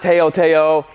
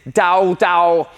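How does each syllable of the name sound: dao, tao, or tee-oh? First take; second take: tee-oh; dao. First: Each syllable sounds like 'tee-oh'. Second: Each syllable sounds like 'dao' with d. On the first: "It's not Teo Teo" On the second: "If you're Chinese, it's Dao Dao"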